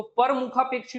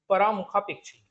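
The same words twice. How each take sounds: First: "परमुखापेक्षी" with a short पर, no long aa; correct "परमुखापेक्षी". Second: "परामुखापेक्षी" with a long aa after प; wrong "परामुखापेक्षी". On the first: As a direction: say "परमुखापेक्षी" as पर-मुखापेक्षी. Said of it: "तो परमुखापेक्षी होता है". ("परमुखापेक्षी" में छोटा पर) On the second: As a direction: read "परामुखापेक्षी" as परा-मुखापेक्षी. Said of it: "परा वाला जो था वो तो पहले ही गलत". ("परामुखापेक्षी" में परा का लंबा आ) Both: Shown as a demonstration.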